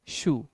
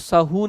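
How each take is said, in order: First: The word is said as one syllable. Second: The word is split into two syllables. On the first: The speaker calls it right. "शू एक syllable है" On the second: The speaker calls it wrong. "आप इसको सहू नहीं कह सकते"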